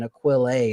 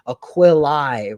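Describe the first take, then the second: First: The final vowel is not an 'eye' sound. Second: The final vowel sounds like 'eye'. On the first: This is the ecclesiastical pronunciation. "rather than Aquilae in the ecclesi- ecclesiastical" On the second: This is the classical pronunciation. "their A Es are pronounced as I"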